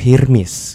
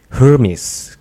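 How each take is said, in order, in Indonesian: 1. Nama itu diucapkan dengan logat Timur Tengah. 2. Nama itu diucapkan dengan logat Amerika. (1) "kalau di Timur Tengah tuh Hermes gitu" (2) "Biasanya tuh kalau US, Amerika gitu Hermes gitu"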